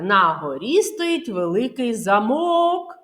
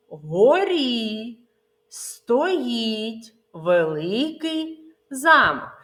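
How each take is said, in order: First: Замок misstressed as за-МОК; stress on the last syllable of замок. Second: Замок stressed as ЗА-мок, the castle; slow, word by word, landing on ЗА in замок; stress on the first syllable of замок. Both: Shown as a demonstration. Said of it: "місця наголоса може змінитися значення слова".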